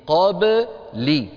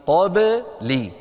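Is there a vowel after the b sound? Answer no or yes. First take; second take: yes; yes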